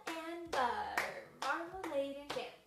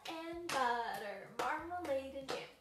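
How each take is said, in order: Both takes have the same delivery.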